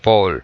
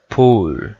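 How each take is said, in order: First: The vowel is short. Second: The vowel is long. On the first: The speaker calls it wrong. "nada de pool" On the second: The speaker calls it right. "Recordamos que es U larga"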